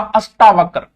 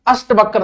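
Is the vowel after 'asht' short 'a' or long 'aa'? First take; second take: long aa; short a. First: The vowel after 'asht' is a long 'aa'. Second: The vowel after 'asht' is a short 'a'. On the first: The speaker calls it right. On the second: The speaker calls it wrong.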